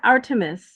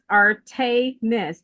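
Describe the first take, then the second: First: The middle syllable does not sound like 'tay'. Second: The middle syllable sounds like 'tay'. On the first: The speaker calls it wrong. "not Artemis. Some people say Artemis" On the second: The speaker calls it right. "it's Artemis, T A Y, Artemis, like M I S S, Miss"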